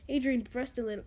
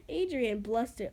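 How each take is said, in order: First: Brushed said for blushed, with r; misread brushed. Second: Blushed said with l, carefully; corrected blushed. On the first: Real, not acted. Reader misreading blushed as brushed. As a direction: stumble saying brushed. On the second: Shown as a demonstration. Reader correcting herself to blushed. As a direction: fix it to blushed.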